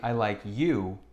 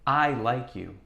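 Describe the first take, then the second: First: The word you is stressed. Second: The word I is stressed. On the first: This person, not someone else, is the one liked. "when we emphasize the word you" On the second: The speaker, not someone else, is the one who likes. "let's emphasize the word I"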